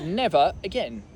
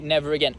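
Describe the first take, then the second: First: The words are said slowly and separately, without R. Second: The words are joined smoothly with a linking R. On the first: "If you say it slowly, you could say never again" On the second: "if you join them, you'd normally say never again"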